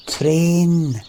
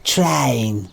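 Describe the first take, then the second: First: "train" with a long, pure Scottish e; "train" drawn out as an unbroken "trehn"; proper pronunciation. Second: "train" widened to a drawn-out "trine"; mock "train" with an "eye" vowel; "train" said like "try-een", falling; mocked mispronunciation. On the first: Shown as a demonstration. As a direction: stretch "train" on one clean vowel, higher. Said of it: "the one that's saying it properly". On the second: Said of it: "You probably say something like train".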